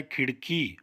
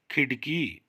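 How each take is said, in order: First: खिड़की said with the flapped ड़ in the middle; खिड़की carefully with ड़; correct nukta sound. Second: खिड़की said with a hard stopped ड instead of the flap; deliberately wrong खिड़की with a plain ड; wrong plain ड sound. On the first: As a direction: say खिड़की with a flap ड़, tongue tapping once. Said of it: "बिंदी लगानी पड़ेगी". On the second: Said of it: "जो गलत है". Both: Shown as a demonstration.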